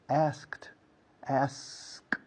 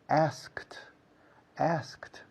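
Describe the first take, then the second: The two takes are said the same way.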